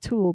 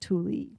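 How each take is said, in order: First: The word sounds like one syllable, 'tool'. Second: The word sounds like two syllables, 'too-lee'. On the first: This is how the speaker assumed it was said. The speaker calls it wrong. "I thought it was just Tool" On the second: This is how the local people say it. The speaker calls it right. "they pronounce it Tule"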